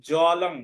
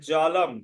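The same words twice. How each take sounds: First: জলং ending in "ng", "jalong"; as written. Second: জলম closing on m, "jalam"; correct pronunciation. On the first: Teacher reads the written word, anusvara as ng. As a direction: say জলং with final "ng". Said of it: "এর উচ্চারণ হবে". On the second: Teacher gives the result, correct pronunciation. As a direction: shut the lips at the end of জলম. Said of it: "উচ্চারণ হবে জলম". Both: Shown as a demonstration.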